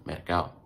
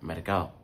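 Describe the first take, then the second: The two takes are said the same way.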